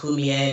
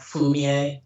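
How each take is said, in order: First: The name begins with a soft h-like sound. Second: The name begins with a clear f sound. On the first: The speaker calls it right. "My sister's name is Fumie" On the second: The speaker calls it wrong. "not not Fumie"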